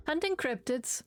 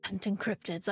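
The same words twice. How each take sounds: First: Lightly voiced Robert line, higher; Robert's answer. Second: Low, half-hearted Batman-style voice; Robert. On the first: Player reads Robert's answer to question, lightly voiced. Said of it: "that's a very Robert answer". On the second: Acted. Player tries a voice for Robert, half-hearted low attempt. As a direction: drop lower for a tentative brooding-hero voice. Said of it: "I can't do the Batman voice for him".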